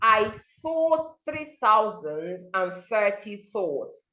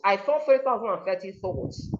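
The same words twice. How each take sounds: First: The sentence is said slowly and carefully. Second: The sentence is said quickly and smoothly. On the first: "Take it slowly first" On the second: "you increase your speed"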